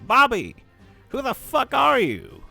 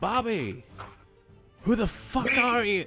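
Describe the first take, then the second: First: It is said in a put-on character voice. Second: It is said in the speaker's normal voice.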